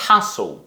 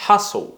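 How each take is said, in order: No difference in how they are said.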